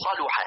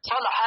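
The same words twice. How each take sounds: First: صلح with a "u" after the lam; rounded middle vowel in صلح, sa-lu-ha; damma on lam. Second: صلح with an "a" after the lam; fatha on lam. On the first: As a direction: say صلح as saluha. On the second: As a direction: say صلح as salaha. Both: Shown as a demonstration. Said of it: "بفتح اللام وضمها".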